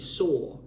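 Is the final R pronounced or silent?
silent. The final R is silent, British style.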